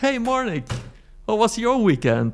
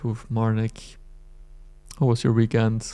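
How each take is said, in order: First: It sounds upbeat and excited. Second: It sounds flat and unexcited.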